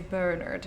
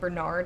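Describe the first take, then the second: First: The name is said with a foreign accent. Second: The name is said in a plain local accent. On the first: This is how the accented characters say it. "they've got accents, so they say Bernard" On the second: This is how the speaker's own community says it. "Which is how we would say it"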